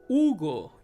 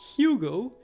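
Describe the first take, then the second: First: The word begins directly with the vowel sound. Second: The word begins with an audible H sound. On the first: "but in Spanish, you say Hugo. You don't pronounce the H" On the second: "So in English, you pronounce it, you might say Hugo"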